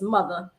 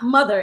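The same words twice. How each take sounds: First: The final R becomes an 'ah' sound. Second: The word ends with a clear R sound.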